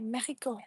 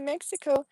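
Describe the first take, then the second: First: It is pronounced the Spanish way. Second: It is pronounced the English way.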